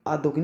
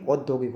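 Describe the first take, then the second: First: औद्योगिक opened with aa, "aad-yogik"; wrong pronunciation. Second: औद्योगिक opened with au, "aud-yogik"; correct pronunciation. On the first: Teacher shows the mistake, औद्योगिक as "aad-yogik". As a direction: start औद्योगिक on aa. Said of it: "औद्योगिक नहीं". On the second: Teacher gives the right form, औद्योगिक as "aud-yogik". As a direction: start औद्योगिक on a rounded au. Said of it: "औद्योगिक होता है". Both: Shown as a demonstration.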